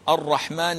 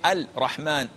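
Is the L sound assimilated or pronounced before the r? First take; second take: assimilated; pronounced. First: The L merges into a doubled r sound. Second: The L sound is clearly pronounced before r. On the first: The speaker calls it right. "the first one is the most correct one" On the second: The speaker calls it wrong. "this is not correct"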